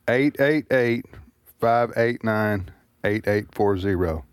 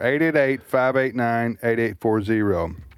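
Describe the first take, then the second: First: The number is said slowly. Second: The number is said at normal speed.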